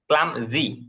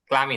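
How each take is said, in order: First: The word is said with a z sound. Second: The word is said without a z sound. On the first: The speaker calls it right. "জেট জেট টাইপের ক্লাম জি" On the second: The speaker calls it wrong. "ক্লামি না"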